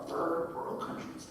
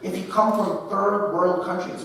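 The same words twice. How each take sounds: First: Slow, hushed half-whisper repeat; quiet puzzled echo. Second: Said in the usual way. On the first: Shown as a demonstration. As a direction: mutter it back to yourself. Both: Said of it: "where did that come from?".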